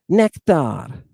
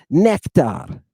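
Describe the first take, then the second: Both takes have the same delivery.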